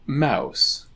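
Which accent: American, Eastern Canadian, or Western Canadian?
American. Said in an American accent.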